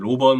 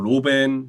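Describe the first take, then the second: First: The second syllable has an 'eo' vowel, 'beon'. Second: The second syllable has an 'e' vowel, 'ben'. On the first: The speaker calls it right. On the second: The speaker calls it wrong.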